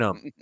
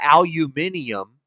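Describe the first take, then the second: First: It is said with four syllables, ending -um. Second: It is said with five syllables, ending -ium. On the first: The speaker calls it right. "It's aluminum. We speak American around here" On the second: The speaker calls it wrong. "It's not aluminium"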